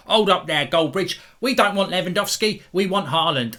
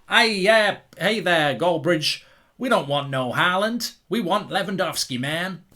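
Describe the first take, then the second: First: Imitating a fan, slightly higher and louder; mock Chelsea fan voice. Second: Lightly put-on American accent, a bit higher; mock American fan. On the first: Vlogger mimicking an angry Chelsea fan, mock London accent. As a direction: put on a cartoon London fan voice. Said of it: "I don't know why I'm speaking like this". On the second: Vlogger imitating an American Chelsea fan, mock American accent. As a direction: do a loose American drawl-free fan voice. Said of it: "whether that sounded like it was Yorkshire or America".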